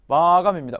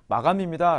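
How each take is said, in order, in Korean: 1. 크게 말하고, 리듬을 살려 통통 튀게 말합니다. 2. 담담하고 고르게, 평평하게 말합니다. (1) "리듬을 살려서" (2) "라고 하지 않고"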